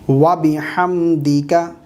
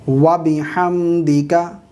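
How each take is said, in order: Both takes have the same delivery.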